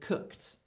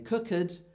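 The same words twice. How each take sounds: First: The ending has no vowel; one syllable. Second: The ending is a separate syllable with a vowel. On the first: The speaker calls it right. "we say cooked" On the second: The speaker calls it wrong. "We don't say cooked"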